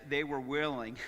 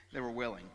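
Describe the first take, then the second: First: Said in the usual way. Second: Chuckling repeat; amused repetition with a laugh. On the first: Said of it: "and it says". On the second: Real, not acted. Pastor repeating the verse to church with a laugh.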